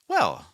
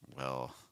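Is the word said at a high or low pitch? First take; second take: high; low. First: The word starts at a high pitch. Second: The word starts at a low pitch. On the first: It conveys warmth and positivity. "if your thought group starts higher in pitch" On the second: It conveys less positivity. "if you lower the pitches on that"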